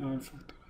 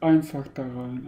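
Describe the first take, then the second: First: Unvoiced whisper, hiding. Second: Said in the usual way. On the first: Real, not acted. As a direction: whisper so nothing hears you. Repeat whispered.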